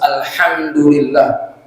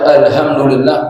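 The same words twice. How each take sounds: First: The letters are articulated clearly and precisely. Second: The letters are articulated loosely and imprecisely. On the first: All praise belongs to God. The speaker calls it right. "harus yang jelas" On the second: The oath belongs to God. The speaker calls it wrong. "sumpah milik Allah"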